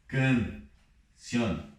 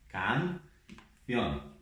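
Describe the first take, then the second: First: The a vowel is closed and nasal. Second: The a vowel is wide open. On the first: The speaker calls it wrong. "Então não vou ler assim" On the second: The speaker calls it right. "bem aberto"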